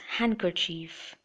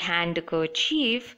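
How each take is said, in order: First: The d sound is silent. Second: The d sound is pronounced. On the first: The speaker calls it right. "but it's handkerchief" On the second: The speaker calls it wrong. "it's not handkerchief"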